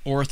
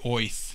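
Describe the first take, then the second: First: The word is said with a plain vowel. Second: The word is said in a New York accent. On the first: The speaker calls it wrong. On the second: The speaker calls it right.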